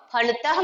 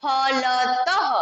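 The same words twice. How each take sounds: First: Said in the usual way. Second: Slow फलतः with an audible visarga h; visarga pronunciation. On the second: Shown as a demonstration. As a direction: stretch फलतः and let the final ह breathe out. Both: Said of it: "तो उसको पढ़ते हैं".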